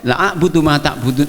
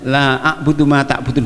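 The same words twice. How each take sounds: First: The vowel of 'la' is cut short. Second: The vowel of 'la' is held long. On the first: I will truly worship what you worship. The speaker calls it wrong. "mengabaikan karena keras cepatnya" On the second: I do not worship what you worship. The speaker calls it right. "minimal dibaca dua harokat ... sah"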